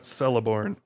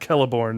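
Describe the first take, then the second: First: It begins with a soft S sound. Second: It begins with a hard K sound. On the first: The speaker calls it wrong. "not Celeborn" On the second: The speaker calls it right. "Going with the proper Tolkien pronunciation"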